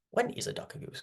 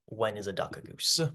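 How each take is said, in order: First: The riddle again in a much higher, hushed whisper; high whispered repeat. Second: Said in the usual way. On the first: Shown as a demonstration. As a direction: breathe "When is a duck a goose?" way up high and softly, puzzled.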